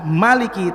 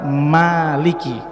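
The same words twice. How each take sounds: First: The first vowel is short. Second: The first vowel is long. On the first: The speaker calls it right. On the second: The speaker calls it wrong.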